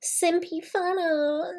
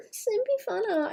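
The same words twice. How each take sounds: First: Drawn-out sing-song "Simpy fan art"; slow high playful drawl. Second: Even higher quick "Simpy fan art"; squeaky excited repeat; higher squeak. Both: Shown as a demonstration.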